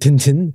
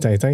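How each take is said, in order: First: The name has English vowels and a final n. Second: The name has French nasal vowels.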